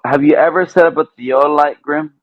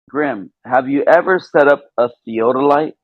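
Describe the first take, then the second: First: It is said at a normal, quicker pace. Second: It is said slowly and deliberately.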